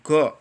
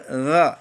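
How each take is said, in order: First: It starts with a plain hard g. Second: It starts with a throaty gh sound. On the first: The speaker calls it wrong. "jangan go" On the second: The speaker calls it right. "Ghafur gha ya"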